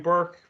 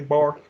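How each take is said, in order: First: The vowel sounds like 'er' in 'burn'. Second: The vowel sounds like 'or' in 'fork'.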